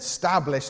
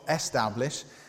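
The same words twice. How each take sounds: First: The word begins directly with an s sound. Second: The word begins with an e vowel sound. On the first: "I said establish, so each heading can begin with an S" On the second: "not establish"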